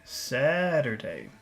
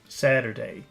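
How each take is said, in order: First: The word is said with strong focus emphasis. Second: The word is said plainly, without extra emphasis. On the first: "Focus Saturday" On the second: "Normal Saturday"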